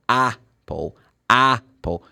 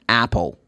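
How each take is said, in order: First: "Apple" slowly with British "ah"; British pronunciation. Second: "Apple" with short American A; American pronunciation. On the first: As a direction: begin "Apple" on a long "ah", then a pause. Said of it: "which is more British". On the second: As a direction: open the A of "Apple" between A and E. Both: Shown as a demonstration.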